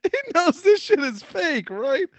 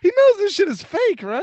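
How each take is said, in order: First: High and slow, each word stretched out; slow, high, stretched-out disbelief; drawn-out incredulous. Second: Much higher, louder disbelieving question; high incredulous squeak about the fan. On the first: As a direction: drag it out in disbelief. Repeats the line more slowly. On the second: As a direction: ask it in amused disbelief. Mocking a fan who takes wrestling seriously. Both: Real, not acted.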